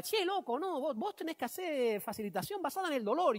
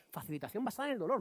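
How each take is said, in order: First: Higher, lilting Argentine imitation; imitated Argentine accent. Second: Said in the usual way. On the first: Colleague pitching pain-based facilitation to the speaker, imitated Argentine accent. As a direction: put on a lively Argentine voice. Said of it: "es argentino".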